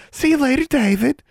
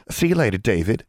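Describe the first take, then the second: First: Suara tinggi melengking mengejek; high-pitched mimicry. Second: Coy. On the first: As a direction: meniru ucapan "See you later" dengan nada sangat tinggi. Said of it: "mimicked Dylan in a high-pitched voice". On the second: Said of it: "a coy little finger wave". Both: A narrator's reading.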